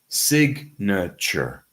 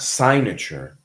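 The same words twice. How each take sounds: First: The first syllable does not sound like sign. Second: The first syllable sounds like the word sign. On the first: The speaker calls it right. "it's signature" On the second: The speaker calls it wrong. "It's not signature"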